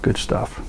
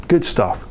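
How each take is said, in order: First: Whispered aside; whispered echo. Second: Said in the usual way. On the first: Acted. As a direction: breathe it out as an afterthought. Echoed softly after first.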